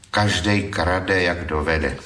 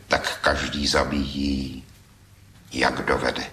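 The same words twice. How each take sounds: First: Slow, with a laugh on the last words; chuckling at a thief's parody verse; amused reading. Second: With feeling. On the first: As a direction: read the thief's line slowly, chuckling. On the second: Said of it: "s takovým citem". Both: A narrator's reading.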